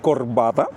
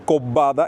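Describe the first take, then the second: First: The r is pronounced clearly before the consonant. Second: The r blends into the following consonant. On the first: This is the standard form. "en vez de" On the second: This is the typical western Cuban way of speaking. "asimilar las consonantes finales, muy especialmente la R"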